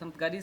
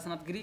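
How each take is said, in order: First: The syllable after g has an a vowel. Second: The syllable after g has an i vowel. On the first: The speaker calls it right. "सनअत गरी सही है" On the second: The speaker calls it wrong. "गिरी नहीं होता, सनअत गिरी क्या होता"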